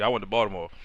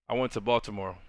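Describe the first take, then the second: First: It is said in a casual street way. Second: It is said in a careful, formal podcast way.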